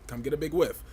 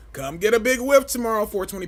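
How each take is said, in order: First: Said in the usual way. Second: "Come get a big whiff tomorrow" much higher and louder, punched at the end on "whiff"; louder hype. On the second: Real, not acted. Pushing the Patreon stream on viewers, a loud high hyped invite.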